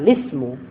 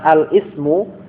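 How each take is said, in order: First: The glottal stop is dropped, linking into lismu. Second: The glottal stop before ismu is clearly pronounced. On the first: "mereka mengatakan lismu" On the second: "bukan al-ismu"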